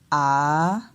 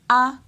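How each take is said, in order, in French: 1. La hauteur de la voyelle baisse puis remonte. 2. La voyelle est prononcée sur un ton haut. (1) "on descend et après on monte" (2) "l'intonation monte"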